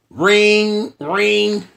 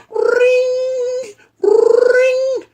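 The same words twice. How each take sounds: First: Spoken ring ring, slightly raised; mock phone ring; phone ring imitation. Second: Shrill high ring ring; high phone ring. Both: Shown as a demonstration. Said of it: "Let's try this one more time".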